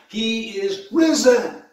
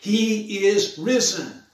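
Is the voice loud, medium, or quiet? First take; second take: medium; quiet. First: It is said louder than before. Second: It is said at the quietest level.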